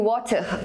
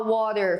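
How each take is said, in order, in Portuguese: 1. É falado com sotaque britânico. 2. É falado com sotaque americano. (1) "com sotaque britânico" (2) "com sotaque americano"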